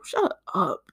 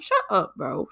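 First: Said in the usual way. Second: Exasperated shut up. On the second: Acted. Cutting off an imagined commenter, exasperated. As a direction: snap it at the critic.

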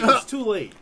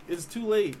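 First: Loud, punchy declaration; loud emphatic. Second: Said in the usual way. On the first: Real, not acted. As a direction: hit it hard and loud. First take, loud.

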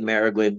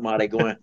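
First: Marigüen said as MARE-ih-gwin; "mare" start and "gwin" ending on Marigüen; careful pronunciation. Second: Marigüen slurred into MAH-dee-gwah; fast-talk pronunciation. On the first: Explaining what bayou talkers mean to say, full pronunciation. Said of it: "they might be saying Marigüen". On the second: Explaining how fast Cajun talk changes it, slurred version. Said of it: "talking so fast it comes out". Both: Shown as a demonstration.

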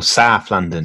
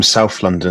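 First: Badly faked South London accent. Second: Said in the usual way. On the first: Shown as a demonstration. Joking to co-host about living in South London, awful South London accent. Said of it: "that was an awful accent". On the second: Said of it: "or South London".

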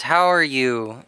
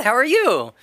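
First: Slightly glum, low and slow; low-energy mock greeting; glum customer greeting. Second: Imitated clerk's high, friendly greeting; mock customer-service cheer, pitched up; chirpy shop clerk. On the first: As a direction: imitate a downbeat guy's greeting, drawn out. Voices Mac greeting boba clerk. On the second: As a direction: play the bubbly counter girl asking. Voices cheerful boba shop clerk.

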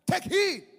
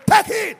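First: High, shouted command; forceful warning. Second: Very loud, high shouted command; full shout. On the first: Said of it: "he said to them". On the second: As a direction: bellow the warning at the crowd. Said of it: "He said to them". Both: Acted.

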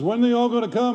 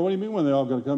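First: Higher-pitched imitation of a worried question; puzzled pastor. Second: Retold comeback in a matter-of-fact voice; questioning reply. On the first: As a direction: mimic the pastor asking, pitched up. Worried cowboy pastor's question retold. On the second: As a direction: echo his question back, plainly puzzled. Own puzzled reply, retold lower.

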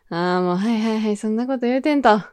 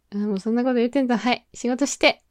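First: Quick, casual dismissive brush-off; breezy brush-off. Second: Very fast, offhand dismissive patter; rapid brush-off. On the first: Brushing off a teasing coworker, quick casual dismissal. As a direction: wave it away like a cool older sister. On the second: Shooing a teasing coworker back to work, rapid offhand brush-off. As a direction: rattle it off and send them back to work. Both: Pretend. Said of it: "こう受け流す系？".

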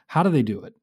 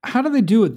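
First: Said in the usual way. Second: "they" pushed high and loud, the rest falling; stress on THEY. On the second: Real, not acted. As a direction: punch "they" hard, like a challenge. Host presses the guest.

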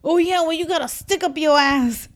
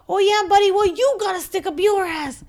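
First: A taunting jab, raised and louder; mocking retort. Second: High, loud insult yelled back; shouted taunt. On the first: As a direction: toss the insult at the clerk with attitude. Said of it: "then he goes to the D M V man". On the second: Retold or imitated. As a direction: repeat the jab louder and higher, mocking. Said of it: "He said".

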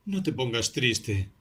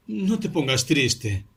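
First: Said in the usual way. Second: No te pongas triste, higher and louder, slowed; louder, higher repeat. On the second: A narrator's reading. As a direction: press the words harder the second time. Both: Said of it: "repetía".

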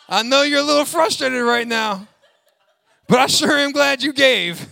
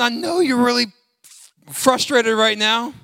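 First: Louder, high, laughing mock sympathy; looser mock God. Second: Lightly voiced, laughing mock sympathy; mock God voice. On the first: Pastor mocking a God who praises grudging givers, hammed up and laughing. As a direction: ham up the sarcastic God with a laugh. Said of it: "Get a little loose". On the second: Pastor mocking a God who praises grudging givers, laughing. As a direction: tease it like a sarcastic God. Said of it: "God is not looking at you going".

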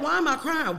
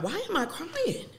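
First: Higher, mock bewildered "Why am I crying?"; mock distressed. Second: Higher, quieter, laughing through "Why am I crying?". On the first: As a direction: play the confused weepy self, lightly. Mock inner voice before period. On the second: Retold or imitated. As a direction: laugh at your own tears as you ask again. Repeats it, breaking into laughter.

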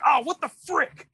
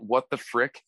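First: High pitched angry parent holding back a curse; mock restrained anger. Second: Said in the usual way. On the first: Parent mad in front of kids, high mock anger. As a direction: blurt it like a furious parent censoring himself. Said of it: "really mad but they don't wanna curse". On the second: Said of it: "a legitimate".

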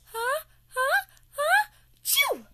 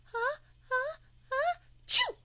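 First: Rising huh huh huh then a loud chew; building sneeze. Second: Huh huh huh, then chew; building sneeze. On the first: Olivia hiding in the house, sneeze builds up loud and high. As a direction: climb higher and louder into the sneeze. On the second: Olivia hiding, sneezes again. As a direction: let the sneeze build and burst. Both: Acted. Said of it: "Olivia goes".

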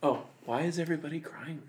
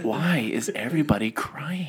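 First: Soft, hushed bafflement; leaning in, quieter. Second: Slow, drawn-out question at near-normal volume; slow, more audible. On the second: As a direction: spell out the bafflement slowly, with a laugh. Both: Acted. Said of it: "don't lean closer and get quieter".

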